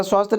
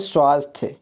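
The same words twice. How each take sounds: First: स्वास्थ्य as "swaast", bare ending; wrong form. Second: स्वास्थ्य as "swaasth-ye"; correct form. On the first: Teacher questioning the misspelling, स्वास्थ्य as "swaast". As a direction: drop the final y of स्वास्थ्य. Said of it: "इस तरह स्वास्थ्य लिखा जाता है नहीं". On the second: Teacher recalling familiar spelling, स्वास्थ्य as "swaasth-ye". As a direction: sound the y ending in स्वास्थ्य. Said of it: "बचपन से देखते आ रहे हैं". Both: Shown as a demonstration.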